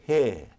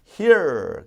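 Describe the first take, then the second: First: The final R is dropped. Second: The final R is clearly sounded. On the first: "영국에선 here 그러지 않고 R 사운드를 죽여" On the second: "미국은 버터 R R 이렇게 가지만"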